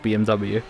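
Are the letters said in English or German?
English. The letters are said with English letter names. "I usually just pronounce it B M W on stream"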